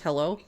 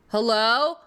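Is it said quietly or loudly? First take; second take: quietly; loudly. First: It is said quietly. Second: It is said loudly.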